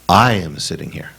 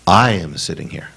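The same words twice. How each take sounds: First: It is said with strong, felt emphasis. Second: It is said with strong, felt emphasis.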